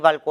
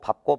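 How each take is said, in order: First: An l sound comes before the final syllable. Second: A p sound comes before the final syllable. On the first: The speaker calls it wrong. "밝고로 하고는 안 해" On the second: The speaker calls it right. "밥으로 발음한다"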